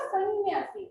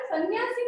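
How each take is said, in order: First: सन्यासी with a held nasal, "sann-nyaasi"; correct pronunciation. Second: सन्यासी run together as "san-yaasi"; no lingering nasal in सन्यासी; wrong pronunciation. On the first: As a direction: linger on the "n" of सन्यासी. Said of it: "इसका उच्चारण क्या होगा". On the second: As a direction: say सन्यासी with a plain quick "n". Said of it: "तो ये अशुद्ध है". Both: Shown as a demonstration.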